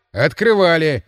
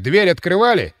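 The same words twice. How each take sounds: First: "Открывали" as a firm falling statement; answering. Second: Raised question stressing "открывали". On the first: Guard admits it to the inspector, stating "Открывали". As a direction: confirm "Открывали" with a falling tune. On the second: Inspector quizzes the guards on procedure, questioning "открывали". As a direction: ask it, leaning firmly on "открывали". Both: A narrator's reading.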